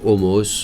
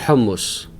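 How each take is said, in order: First: The word is pronounced the French way. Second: The word is pronounced the Lebanese way. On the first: "en français on dit hummus" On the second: "en libanais ça se dit hummus"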